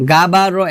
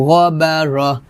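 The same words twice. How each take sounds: First: গাবারহ with a plain, thin গা, the mistake to avoid; wrong thin reading. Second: গবারহ with a thick, rounded গ from the throat; correct heavy ghain. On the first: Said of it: "গাবারহ এটা হবে না". (ভুল উচ্চারণ, গাবারহ পাতলা করে) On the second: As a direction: say গবারহ full-mouthed and heavy. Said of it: "এটা হবে না". (গবারহ ভারী ও মোটা করে) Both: Shown as a demonstration.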